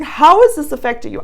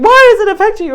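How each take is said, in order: First: Gentle curious ask. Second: Sharp high mocking ask, much louder; accusing tone. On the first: To her birth father, the gentle way she really asked it. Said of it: "I was just saying". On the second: To her birth father, the accusing way she did not ask it. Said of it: "I wasn't saying". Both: Shown as a demonstration.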